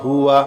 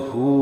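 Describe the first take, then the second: First: The word is said in full, ending in 'wa'. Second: The word is cut short, ending on 'hu'. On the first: The reading continues without a stop. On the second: The reader stops on this word.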